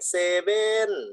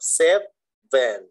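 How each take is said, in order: First: The word is said without a clear v sound. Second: The word is said with a clear v sound. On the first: It sounds like a regional word without meaning. The speaker calls it wrong. "มันจะไปคล้ายๆกับภาษาอีสานเซเว" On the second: It means the number seven. The speaker calls it right. "เอาเซฟเวนนะครับ"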